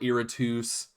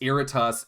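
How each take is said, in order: First: The ending does not sound like Brutus. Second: The ending sounds like the ending of Brutus. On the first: This is how the cinematics say it. The speaker calls it wrong. "I don't know why they call it Iritus" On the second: This follows the Latin suffix. The speaker calls it right. "It's Iritus. It even plays better. It sounds better"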